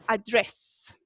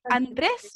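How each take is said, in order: First: "address" as an Americanized Andrés, a-DRESS; slower American-accented "address", stressed on DRESS; gringo accent. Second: Said in the usual way. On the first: Shown as a demonstration. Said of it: "de una forma un poquito gringa". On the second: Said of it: "En vez de decir Andrés".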